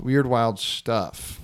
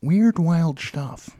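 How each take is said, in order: First: Slow, drawn-out delivery; deadpan slow catchphrase. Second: Slow, put-on voice; slow, mock-announcer echo; slow catchphrase echo. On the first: Acted. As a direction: savor each word slowly. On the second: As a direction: echo it back in a put-on drawl.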